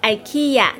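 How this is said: It is said with an American English pronunciation. The speaker calls it wrong. "美国人会说IKEA"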